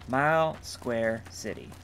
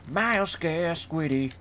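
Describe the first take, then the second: First: The last word sounds like 'city'. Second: The last word sounds like 'squiddy'. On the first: The speaker calls it right. "You've pronounced the name correctly" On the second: The speaker calls it wrong.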